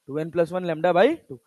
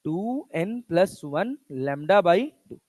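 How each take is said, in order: First: Said in the usual way. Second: Spoken slowly for students to write down; slow teacher dictation pace. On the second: Shown as a demonstration. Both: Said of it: "क्या लिखोगे बच्चा".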